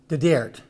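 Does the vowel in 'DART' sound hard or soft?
hard. The vowel in DART sounds hard and flat. The speaker comes from a less well-off area. "it becomes the Dert"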